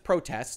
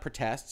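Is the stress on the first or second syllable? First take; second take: first; second. First: The stress is on the first syllable. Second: The stress is on the second syllable. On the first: It is the noun, meaning demonstrations. The speaker calls it right. "That's protests" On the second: It is the verb, meaning to object. The speaker calls it wrong. "not protests. It's not the verb"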